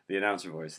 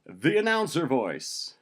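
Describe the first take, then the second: First: Said in the usual way. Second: High, loud, slow grand announcement; announcer voice. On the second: Acted. Host titles his own story, announcer voice. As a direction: stretch it out like an arena announcer. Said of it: "starting with the announcer voice".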